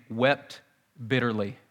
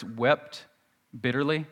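First: "wept" lifted, pause, "bitterly" falling; savoured words. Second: Wept and bitterly each set apart; savoured words. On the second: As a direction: say "wept" then pause, then "bitterly". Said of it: "Those two words". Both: Shown as a demonstration.

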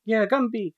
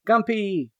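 First: Said in the usual way. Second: "Gumpy" said with a hard p for the b; silly "Gumpy" with p instead of b; playful mispronunciation. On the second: Shown as a demonstration. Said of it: "Gumpy boy".

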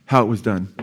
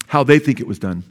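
First: Said in the usual way. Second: THEY stressed as a correction; pointed emphasis on the word "they". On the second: Real, not acted. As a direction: lean on "they" to cast doubt.

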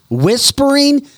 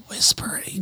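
First: High-pitched, disbelieving exclamation; incredulous. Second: Hushed, voiceless imitation of whispering; mimicked whisper. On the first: Real, not acted. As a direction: throw the word out much higher, in disbelief. Incredulous list of Biden's remarks. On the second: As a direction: whisper the word to mock it. Mocks Biden's whispering by whispering.

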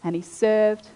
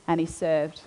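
First: Said in the usual way. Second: And he served, trailing off much softer and lower; fading repetition. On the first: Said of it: "he began serving within that house". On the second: Shown as a demonstration. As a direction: let the last and he served die away.

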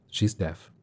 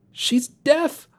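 First: Said in the usual way. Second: Very high squeaked question, rising; startled squeak. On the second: A narrator's reading. Shane echoes the news that the sister is deaf, squeaking. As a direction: squeak it in disbelief. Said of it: "I squeaked, as if I didn't know how".

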